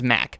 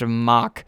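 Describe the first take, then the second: First: The name is said with an English pronunciation. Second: The name is said with a German pronunciation. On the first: "we pronounce it as Mack" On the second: "pronounced Mach in uh, Germany"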